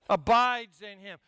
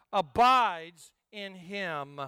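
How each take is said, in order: First: Said in the usual way. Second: Slow solemn scripture voice; slow deliberate reading. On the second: Shown as a demonstration. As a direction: stretch each word out slowly.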